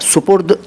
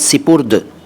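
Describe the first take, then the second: First: The first syllable is said with a u vowel. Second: The first syllable is said with an i vowel. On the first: The speaker calls it wrong. "सुपुर्द चलता है लेकिन है गलत" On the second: The speaker calls it right. "सही शब्द है सिपुर्द"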